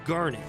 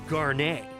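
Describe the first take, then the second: First: The name is said the plain English way. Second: The name is said with a French-style pronunciation. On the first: This is the ordinary name of the gemstone. The speaker calls it right. "I refused to call her Garnet" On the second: This sounds more regal and French. The speaker calls it wrong. "more regal to call her Garnet"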